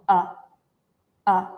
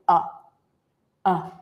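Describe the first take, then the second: The two takes are said the same way.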